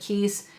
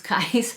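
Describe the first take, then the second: First: The name sounds like the word 'keys'. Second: The name is said with the vowel of 'kais'. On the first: Some other people say it this way. The speaker calls it wrong. "I've heard some people pronounce it Keys" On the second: This is believed to be the proper way. The speaker calls it right. "I actually think the correct way to pronounce it is Kais"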